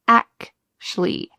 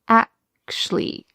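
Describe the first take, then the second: No difference in how they are said.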